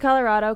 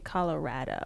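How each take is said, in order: First: It is said the New York, East Coast way. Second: It is said the way local residents say it. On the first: The speaker is not from the state. "I say Colorado because I'm from New York" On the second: The speaker is from the state. "the people from here say Colorado"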